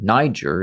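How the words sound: The name is said the American way.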